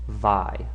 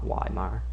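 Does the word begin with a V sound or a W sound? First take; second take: V sound; W sound. First: The word begins with a V sound. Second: The word begins with a W sound. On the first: The speaker calls it right. "those W's are pronounced like V's, so it is Vi" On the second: The speaker calls it wrong. "not Weimar"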